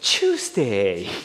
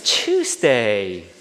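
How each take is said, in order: Both takes have the same delivery.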